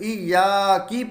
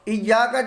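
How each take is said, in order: First: The word ends with an 'i' vowel. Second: The word ends with an 'a' vowel. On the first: The speaker calls it wrong. "ज़ेर पढ़ दें मतलब इय्या की पढ़ दें तो ये गलत" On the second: The speaker calls it right. "जो काफ है इसके ऊपर ज़बर है"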